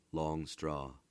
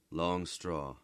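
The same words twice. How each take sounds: The two takes are said the same way.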